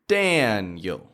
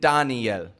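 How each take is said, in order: First: The stress is on the first syllable. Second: The stress is on the last syllable. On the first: The speaker calls it right. "The beginning part is where we put all the power" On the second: The speaker calls it wrong. "it doesn't even sound like the name that Daniel's listening for"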